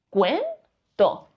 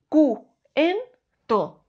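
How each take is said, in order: First: The vowels u and e form one syllable. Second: The vowels u and e are separated by breaks. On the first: The speaker calls it right. "Diríamos cuento" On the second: The speaker calls it wrong. "no diríamos"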